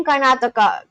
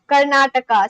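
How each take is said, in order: First: Karnataka in a Spanish accent; Spanish-style t in Karnataka. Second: Said in the usual way. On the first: Real, not acted. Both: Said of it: "calling out Karnataka as Karnataka".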